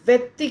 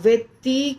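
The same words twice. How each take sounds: First: The final vowel is short. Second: The final vowel is long. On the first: The speaker calls it right. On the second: The speaker calls it wrong.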